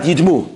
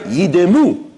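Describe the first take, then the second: First: The d and m run together without a vowel. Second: A short vowel is sounded between d and m. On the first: They should look like a stone. The speaker calls it wrong. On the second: They should be still and silent like a stone. The speaker calls it right. "make sure your Baal Kodesh says it right"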